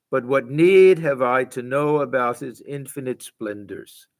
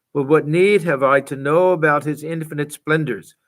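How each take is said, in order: The two takes are said the same way.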